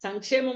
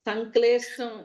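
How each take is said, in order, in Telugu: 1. ఈ పదంలో స్పష్టమైన 'ksh' అక్షర సమూహం ఉంది. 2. ఈ పదంలో అస్పష్టమైన 'kl' అక్షర సమూహం ఉంది. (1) "సంక్షేమం అనుకున్నాడా?" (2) "సంక్లేష్టం ఏదో అర్థం గాలా నాకు"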